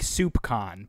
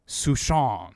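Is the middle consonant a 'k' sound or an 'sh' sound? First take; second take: k; sh. First: The middle consonant is a hard k sound. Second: The middle consonant is a soft sh sound. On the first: The speaker calls it wrong. "It looks like soup con, but it's not" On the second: The speaker calls it right. "It's like Souchon or something like that"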